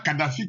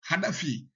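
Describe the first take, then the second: First: The name is said the usual French way. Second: The name is said the way Arabic speakers say it. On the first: "comme nous on dit" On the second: "ils disent Hadafi"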